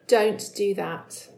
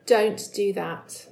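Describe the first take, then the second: First: It is said in a stern tone. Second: It is said in a stern tone.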